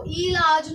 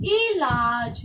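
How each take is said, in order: First: इलाज said as eelaaj with a long ee; the wrong way, stretching the first vowel of इलाज; इलाज mispronounced with a drawn-out ee. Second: इलाज said with a short crisp i; the right way, इलाज starting on a quick short i; इलाज with a short i, as it should be; correct short i. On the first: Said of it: "ये गलत है". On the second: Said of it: "बोलकर ही देखो". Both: Shown as a demonstration.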